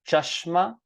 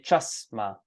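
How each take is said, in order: First: The word is said with an sh sound. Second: The word is said with a plain s sound. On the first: "The word for glasses is chashma" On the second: "many people say chasma"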